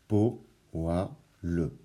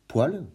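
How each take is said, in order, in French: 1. Le mot se découpe en trois syllabes. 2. Le mot se prononce avec deux syllabes. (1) "trois syllabes" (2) "deux syllabes"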